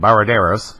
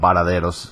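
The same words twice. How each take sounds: First: It is said with an American or European accent. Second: It is said with a Cuban Spanish accent.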